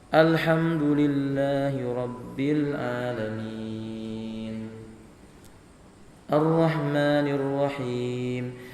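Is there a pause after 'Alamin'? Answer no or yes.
yes. There is a pause after the first verse. The speaker calls it right. "kalau membaca Al-Quran berhenti di ujung ayat"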